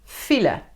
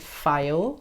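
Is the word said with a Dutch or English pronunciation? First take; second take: Dutch; English. First: It is said with a Dutch pronunciation. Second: It is said with an English pronunciation. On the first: The speaker calls it right. "No, file" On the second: The speaker calls it wrong. "which isn't file, such as the English one"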